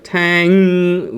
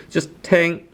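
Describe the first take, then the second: First: Tang stressed too much at the end; tang with a heavy ending; wrong tang. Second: Tang kept very short at the end; tang cut off short, no end stress; correct tang. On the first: Teacher demonstrates the mistake. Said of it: "which is not correct". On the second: Teacher models the right tang. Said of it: "very short towards the end". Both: Shown as a demonstration.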